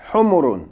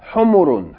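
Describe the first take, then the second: First: The vowels are kept short. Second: The same.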